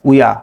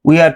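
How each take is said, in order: First: The two words merge into one syllable. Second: Two separate words are said in full.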